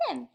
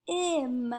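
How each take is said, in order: First: Said in the usual way. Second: "T-im" split as a crisp T, pause, then IM; segmented word. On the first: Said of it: "the middle of Tim". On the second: Shown as a demonstration. Teacher helping pupils hear the middle sound, segmented. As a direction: sound out "T-im" in two separate pieces. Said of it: "let's segment that".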